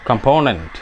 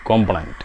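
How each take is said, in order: First: കമ്പോണന്റ് echoed in an American English way, stress on the second syllable; കമ്പോണന്റ് in a light American accent; American pronunciation. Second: കോമ്പണന്റ് said the Indian English way, long first o, lower and softer; Indian English pronunciation. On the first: Retold or imitated. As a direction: repeat കമ്പോണന്റ് the way the American clip says it. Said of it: "American pronunciation". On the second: Shown as a demonstration. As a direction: say കോമ്പണന്റ് as an Indian English speaker would, dropped low. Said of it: "Indian English".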